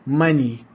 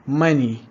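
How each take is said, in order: Both takes have the same delivery.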